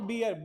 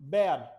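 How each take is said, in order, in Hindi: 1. स्वर 'beer' के स्वर जैसा सुनाई देता है। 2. स्वर 'bare' के स्वर जैसा सुनाई देता है। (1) "नॉट बियर" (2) "बियर हम बेटा गलत प्रोनाउंस करते हैं इसे"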